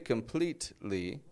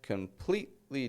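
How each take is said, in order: First: The middle T is fully pronounced. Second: The middle T is reduced, almost dropped. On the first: The speaker calls it wrong. "I didn't say completely" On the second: The speaker calls it right. "but rather completely"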